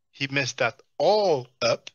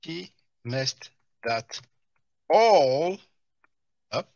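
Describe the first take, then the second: First: Slow mocking repeat. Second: Slow mock imitation.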